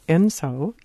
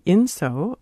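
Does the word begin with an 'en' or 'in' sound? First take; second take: en; in. First: The word begins with an 'en' sound. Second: The word begins with an 'in' sound. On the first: "or enso, E-N-S-O" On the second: "It can be inso, I-N-S-O"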